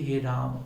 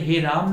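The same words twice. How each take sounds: First: हे राम with full अ on म; correct he raama. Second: हे राम with म clipped; wrong he raam. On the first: Teacher gives the right हे राम. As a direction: sound the अ at the end of राम. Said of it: "बल्कि हे राम". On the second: Teacher shows the wrong हे राम. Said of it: "हे राम नहीं". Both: Shown as a demonstration.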